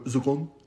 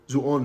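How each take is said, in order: First: The middle consonant is a deep k-like sound. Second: The middle consonant is a glottal stop. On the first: This is the standard way with the qaf. "if you want to do the cough" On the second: This is how an Egyptian would say it. "Zuon is how an Egyptian would say it"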